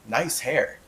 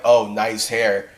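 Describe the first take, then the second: First: It is said genuinely. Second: It is said sarcastically.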